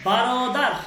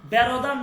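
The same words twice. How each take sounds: First: বারোদার with a clear open a, baa-ro-daar; correct pronunciation. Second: বেরোদার said with e in the first syllable; the mistaken বেরোদার, e instead of a; wrong pronunciation. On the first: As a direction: say বারোদার, not বেরোদার. (বারোদার স্পষ্ট আ দিয়ে উচ্চারণ) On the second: (ভুল উচ্চারণ বেরোদার) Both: Shown as a demonstration. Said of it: "বেরোদার না".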